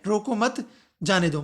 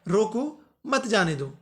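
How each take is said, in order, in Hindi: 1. विराम 'mat' शब्द के बाद आता है। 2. विराम 'roko' शब्द के बाद आता है। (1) "मतलब जो जा रहा है उसे रोकना नहीं है, जाने दो" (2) "मतलब उसे रोक लो, मत जाने दो"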